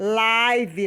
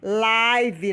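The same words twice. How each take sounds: First: The vowel rhymes with 'five'. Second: The vowel rhymes with 'five'.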